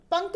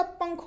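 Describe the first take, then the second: First: पंख as pank; wrong pronunciation. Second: Said in the usual way. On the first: Shown as a demonstration. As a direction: end पंख on an unaspirated k. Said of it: "पंख नहीं होता". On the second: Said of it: "पंख होता है".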